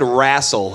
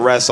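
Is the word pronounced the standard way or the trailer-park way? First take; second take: trailer-park; standard. First: The word has a rural trailer-park pronunciation. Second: The word has the ordinary standard pronunciation. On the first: This is how the other person said it. "You said wrestle" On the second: This is the usual way to say it. "instead of wrestle"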